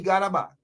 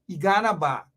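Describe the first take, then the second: First: It is said flatly, without much energy. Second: It is said with passion and strong energy. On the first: The speaker calls it wrong. "You can't just say" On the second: The speaker calls it right. "you got to say it with passion"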